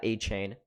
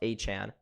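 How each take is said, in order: First: The last syllable sounds like 'chain'. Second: The last syllable does not sound like 'chain'. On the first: The speaker calls it wrong. "not A-Chain" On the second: The speaker calls it right. "it's actually pronounced Achan"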